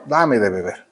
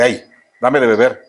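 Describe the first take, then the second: First: Soft, low, gentle asking; kind request. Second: A curt, careless "Hey, dame de beber"; rude demand. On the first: Jesus asking the Samaritan woman for water, gently. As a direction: ask politely, lower and softer. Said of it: "de una manera muy amable". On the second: The rude way Jesus did not ask for water, curt. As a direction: toss it off like an order. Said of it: "No le dice". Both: Retold or imitated.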